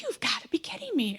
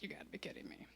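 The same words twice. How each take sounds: First: Higher-pitched, exclaimed disbelief; retold outburst of disbelief; incredulous. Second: Much softer, under the breath; retold aside, barely voiced; muttered disbelief. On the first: Customer seeing the worker smoking out the window, incredulous. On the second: Customer seeing the drink far from the top, muttered disbelief.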